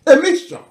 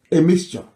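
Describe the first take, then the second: First: Much higher, ringing emphasis on A mixture; emphatic high repeat. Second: Said in the usual way. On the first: Real, not acted. Commentator stressing the dialect mix, high and emphatic.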